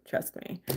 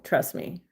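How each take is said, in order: First: "Trust me." breathed in a whisper; a confiding whispered "Trust me.". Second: Said in the usual way. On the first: Real, not acted. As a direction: lean in and whisper it. Whispered repeat to a viewer.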